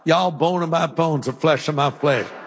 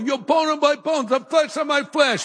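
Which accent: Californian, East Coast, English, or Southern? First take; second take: Southern; East Coast. First: It is said in a Southern US accent. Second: It is said in an East Coast accent.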